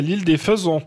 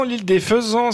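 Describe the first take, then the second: First: "Faisans" with a rounded ON ending; "Faisans" with a closed, rounded last vowel; supposed French pronunciation. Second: "Faisans" ending in an open AN; "Faisans" with the open nasal vowel; supposed Spanish pronunciation. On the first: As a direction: say "Faisans" like "faisons", fuh-ZON. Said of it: "puisqu'en français, c'est". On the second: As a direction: say "Faisans" as fuh-ZAHN, as if it were Spanish. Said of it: "c'est en espagnol". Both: Shown as a demonstration.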